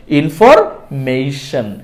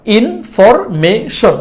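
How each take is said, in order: First: ইনফরমেশন with "mei" for মে; correct pronunciation. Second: ইনফরমেশন in slow chunks, plain e in মে; wrong pronunciation. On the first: Teacher telling learners how from today, ইনফরমেশন with "mei-shan". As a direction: glide e to i in the মে of ইনফরমেশন. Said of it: "সঠিকভাবে উচ্চারণ করে বলবেন". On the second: Teacher showing the common mistake, ইনফরমেশন with flat-vowel "me". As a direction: say মে in ইনফরমেশন without a glide. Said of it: "ভুল উচ্চারণ". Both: Shown as a demonstration.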